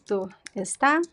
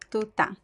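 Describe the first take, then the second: First: The verb is said with both syllables. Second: The verb is shortened to one syllable. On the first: "most people would say" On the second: "with the reduction"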